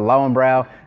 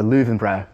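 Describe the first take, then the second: First: The w is sounded as an English w. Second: The w is sounded as a v. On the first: The speaker calls it wrong. "all those people that say they're going to the Lowenbrau" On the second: The speaker calls it right. "pronounced as a V is my understanding"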